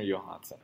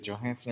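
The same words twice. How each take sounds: First: "Johansson" with the J said as Y; Y pronunciation. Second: "Johansson" with an English J as in John; hard J pronunciation. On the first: Host asks guest which is right, "Johansson" with a Y. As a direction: say "Johansson" starting "Yo-". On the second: Host asks guest which is right, "Johansson" with a J. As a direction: say "Johansson" starting with a J sound. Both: Shown as a demonstration. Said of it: "try it with the Y".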